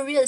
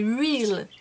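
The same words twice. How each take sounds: First: "Real" mispronounced with a w-like glide, like "ruil"; wrong pronunciation. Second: "Real" with a careful English R at the start; corrected pronunciation. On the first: Vlogger mocking her own slip on the product name, mispronounced "Real". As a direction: say "Real" as "wheel", losing the English R. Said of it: "Mais c'est pas Real". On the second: Vlogger correcting herself on the product name, careful English "Real". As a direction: sound out "Real" as "reel", R first. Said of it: "c'est Real". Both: Shown as a demonstration.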